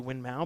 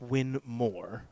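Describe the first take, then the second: First: The second part ends without an r sound. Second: The second part ends with an r sound. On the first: This is how most people commonly say it. "we all say Win Mao" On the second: This is the technically correct original name. "It's actually pronounced Win More"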